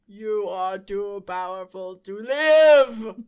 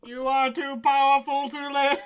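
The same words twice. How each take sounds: First: Loud slow robot line; booming, deliberate robot. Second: Loud robot impression. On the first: Pretend. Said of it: "And the robot says". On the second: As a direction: stress on powerful, booming. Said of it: "Yes, exactly like that".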